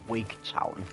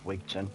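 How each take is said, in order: First: The second syllable is said as 'town'. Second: The second syllable is said as 'ton'. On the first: The speaker calls it wrong. "I just said Wigtown for the, the lols" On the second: The speaker calls it right. "it will one hundred percent be pronounced Wigton"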